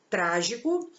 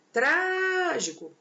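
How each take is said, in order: First: Said in the usual way. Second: "Trágico" with TRÁ held long and high; drawn-out, raised TRÁ in "Trágico" to show the stress; stressed first syllable. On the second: Shown as a demonstration. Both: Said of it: "qual que é a sílaba tônica?".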